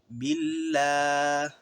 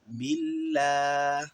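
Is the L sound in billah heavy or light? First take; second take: light; light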